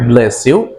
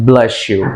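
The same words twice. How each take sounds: First: The s before 'you' stays a plain s. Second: The s before 'you' blends into an sh sound. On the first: The speaker calls it wrong. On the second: The speaker calls it right. "That's why that should be pronounced like"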